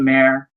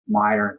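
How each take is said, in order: First: The first syllable sounds like 'may'. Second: The first syllable sounds like 'my'. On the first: The speaker calls it wrong. "It's spelled Mayer" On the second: The speaker calls it right. "they say Meyer"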